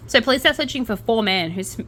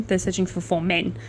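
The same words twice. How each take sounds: First: Said in the usual way. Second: Careful correction on men. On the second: Shown as a demonstration. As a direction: stress the corrected vowel in men. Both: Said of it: "four man instead of four men".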